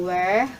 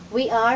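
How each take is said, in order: First: WERE as one syllable, we're; contracted form. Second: WE ARE as two separate words; full form. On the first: Teacher showing what we are becomes, contracted. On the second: Teacher showing beginners the long form, full form. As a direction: give WE and ARE a syllable each. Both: Shown as a demonstration.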